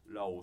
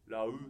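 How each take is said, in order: First: The syllable ends in an 'oh' sound. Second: The syllable ends in an 'oo' sound. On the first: The speaker calls it right. "ラオーシェンと読みましょう" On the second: The speaker calls it wrong. "ラウじゃなくて"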